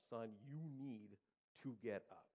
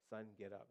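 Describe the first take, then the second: First: Slow, spaced-out imitation of a frustrated dad; lightly voiced firm father's order; mounting frustration. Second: Low-key imitation of a father's order; lightly voiced stern dad; unfussed dad. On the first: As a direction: stretch each word as patience runs out. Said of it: "that frustration in his voice is getting louder". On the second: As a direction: tell the boy evenly, no alarm. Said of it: "that frustration in his voice".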